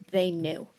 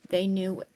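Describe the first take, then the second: No difference in how they are said.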